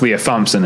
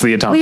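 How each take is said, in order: First: Thompson begins with a TH sound. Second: Thompson begins with a plain T sound. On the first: The speaker calls it wrong. "it's not pronounced Leah Thompson" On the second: The speaker calls it right. "T-H, but it's a silent H"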